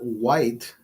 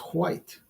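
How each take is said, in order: First: The word starts with a plain W sound. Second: The word starts with a breathy H before W. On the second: "W H, right?"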